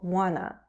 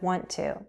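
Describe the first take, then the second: First: The two words blend into one reduced word. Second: Both words are said fully and separately. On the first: The speech is relaxed and informal. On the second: The speech is careful and more formal.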